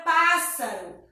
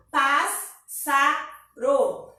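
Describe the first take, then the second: First: Said in the usual way. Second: Pássaro very slowly as pás, sa, ro; pássaro split by long gaps; syllable by syllable. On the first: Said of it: "a gente separa". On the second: Shown as a demonstration. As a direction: say pássaro in three beats, an S sound either side of the break. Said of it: "fica um S pra cada lado".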